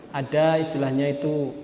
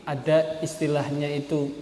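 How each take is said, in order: Both takes have the same delivery.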